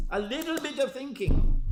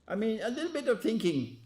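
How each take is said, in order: First: "A little bit of thinking" said again, higher and louder, with weight on "of"; preacher repeats "A little bit of thinking" louder, chiding the audience; pointed repeat. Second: Said in the usual way. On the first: Shown as a demonstration. Preacher to congregation, needling them with a louder "A little bit of thinking".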